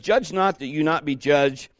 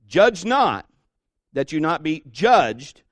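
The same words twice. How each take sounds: First: The words judge and judged are not emphasized. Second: The words judge and judged are emphasized.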